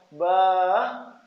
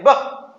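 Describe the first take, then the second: First: Lingering, coaxing "bah"; long, drawn-out "bah". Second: "bah" cut short and loud; one quick, demanding "bah". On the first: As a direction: draw out "bah" like a pleading child. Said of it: "panjang pendeknya". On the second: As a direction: fire out "bah" abruptly. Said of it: "lain, bah". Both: Shown as a demonstration.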